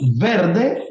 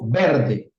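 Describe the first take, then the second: First: The word starts with a lip-teeth v sound. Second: The word starts with a two-lip b sound. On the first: This is the standard pronunciation. The speaker calls it right. "de decir verde" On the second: This is how Venezuelans say it. The speaker calls it wrong. "decimos verde"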